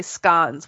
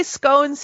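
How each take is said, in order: First: SCONES with a short O, like "cons"; British-style scones. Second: SCONES with a long O, like "bones"; American scones. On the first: Retold or imitated. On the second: Shown as a demonstration. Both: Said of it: "You guys say scones".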